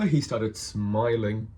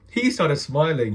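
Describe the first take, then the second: First: "smiling" stretched slowly; drawn-out SMILING. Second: "He started smiling" pushed out louder, slowly; emphatic restatement. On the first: Telling of the shopkeeper's reaction, "smiling" drawn out. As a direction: linger on the word "smiling". Repeats the line for emphasis. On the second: Insisting the shopkeeper saw through him, emphatic "He started smiling". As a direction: hit "He started smiling" hard, word by word. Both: Real, not acted.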